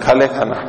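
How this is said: It is said in a dismissive, contemptuous tone. The listener thinks of nothing but food. "दुत्कार के भी बोल सकते हैं"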